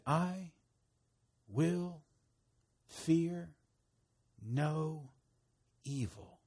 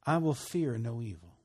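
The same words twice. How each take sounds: First: Each word alone, with a long pause after it; word-by-word recitation. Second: Said in the usual way. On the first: Shown as a demonstration. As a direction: lead listeners through it slowly, one word at a time. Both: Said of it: "say this with me".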